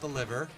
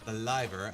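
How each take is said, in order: First: The first vowel is short, as in 'give'. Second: The first vowel is long, as in 'live' (alive). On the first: It names the body organ. The speaker calls it wrong. "not the liver" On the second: It names someone who is living. The speaker calls it right. "I'm alive"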